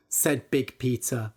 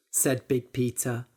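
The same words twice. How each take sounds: The two takes are said the same way.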